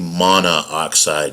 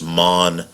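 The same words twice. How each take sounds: First: Two O vowels are said one after another. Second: Only one O vowel is said before 'xide'. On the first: The speaker calls it wrong. "you don't say monoxide" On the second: The speaker calls it right. "so it's just monoxide"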